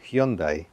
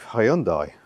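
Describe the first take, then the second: First: It uses the newer, officially preferred pronunciation. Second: It uses the familiar, older pronunciation of the name.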